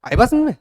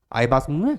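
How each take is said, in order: First: आई बात समझ में? called out high and louder, समझ stressed; teacher's sharp did-you-get-it; pointed check. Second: Said in the usual way. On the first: Shown as a demonstration. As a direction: demand an answer from the class.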